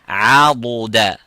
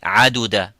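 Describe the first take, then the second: First: The middle consonant is a heavy emphatic d. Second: The middle consonant is a light plain d. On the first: The speaker calls it right. "have a look at this" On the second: The speaker calls it wrong. "think that Dad and Dal here are the same by saying"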